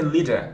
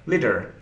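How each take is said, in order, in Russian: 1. На конце нет звука R. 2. На конце слышен оттенок R. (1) "британский вариант" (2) "Если американский английский, то слышится R"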